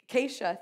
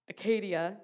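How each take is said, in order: First: The middle consonant sounds like 'sh'. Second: The middle consonant sounds like a 'd'. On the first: The speaker calls it right. "but Acacia, thank you" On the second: The speaker calls it wrong. "I may have said that wrong"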